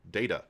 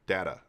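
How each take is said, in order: First: Data said DAY-ta; data with day vowel. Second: Data said DAT-ta; data with flat a. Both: Shown as a demonstration. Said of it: "But I do like data".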